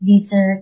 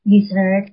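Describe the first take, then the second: First: "dessert" said DEH-zert, like desert; stress on first syllable. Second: "dessert" said di-ZERT; stress on second syllable. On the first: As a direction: open "de" up front, punched, in "dessert". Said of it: "ไม่ใช่ dessert". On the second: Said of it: "dessert ไม่ใช่ dessert". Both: Shown as a demonstration.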